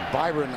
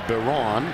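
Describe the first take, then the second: First: The name sounds like Byron. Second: The name sounds like Baron. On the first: This is the pronunciation people might assume. The speaker calls it wrong. "You might think of it as" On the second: This is how the player says his own name. The speaker calls it right. "He pronounces it"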